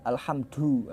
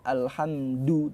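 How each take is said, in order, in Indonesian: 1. d dilepas dengan hembusan nafas. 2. d ditahan tanpa hembusan nafas. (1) "dal medok ya" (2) "Jangan dihembuskan nafas. Alhamdu ditahan"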